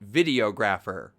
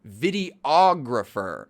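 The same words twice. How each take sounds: First: The stress is on the first syllable. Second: The stress is on a middle syllable. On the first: The speaker calls it wrong. "ไม่ใช่ videographer ครับ" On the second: The speaker calls it right. "การออกเสียงนี้เหมือนกันสำหรับคำว่า video กับ videographer ด้วย"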